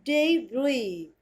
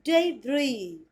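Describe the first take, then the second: The two takes are said the same way.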